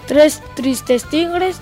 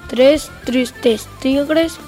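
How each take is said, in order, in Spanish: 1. La frase se dice a velocidad normal. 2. La frase se dice lentamente. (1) "Vamos con la velocidad normal" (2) "Vamos con la velocidad lenta"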